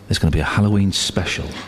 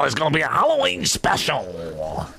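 First: It is said in his normal voice. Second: It is said in the woman's put-on voice.

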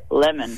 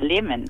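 First: It is said in an Australian accent. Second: It is said in a New Zealand accent. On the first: "Australians go lemon" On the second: "Kiwis and South Africans say lemon"

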